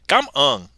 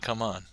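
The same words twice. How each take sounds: First: It is said with Vietnamese tones. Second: It is said with plain English intonation. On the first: It means thank you. "He actually meant to say come on" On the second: It is an English urging phrase. "and not come on"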